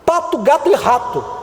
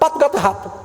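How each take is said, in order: First: The words are said at a normal pace. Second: The words are said quickly, running together.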